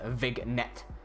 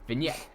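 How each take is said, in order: First: A hard G sound is pronounced. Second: No G sound is pronounced. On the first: The speaker calls it wrong. "It is not read as vignette" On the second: The speaker calls it right. "It is vignette. The G is silent"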